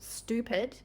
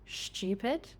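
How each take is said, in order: First: A separate t and y sound follows the s. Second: A blended ch sound follows the s.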